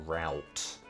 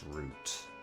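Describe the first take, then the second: First: It is said the way many Americans say it. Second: It is said the speaker's own, non-American way.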